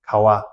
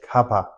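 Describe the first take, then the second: First: The middle consonant is a w, lips apart. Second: The middle consonant is a p, lips closing. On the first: The speaker calls it right. "our lips won't touch" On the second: The speaker calls it wrong. "If you say kapa, Tibetans won't be won't be understand you"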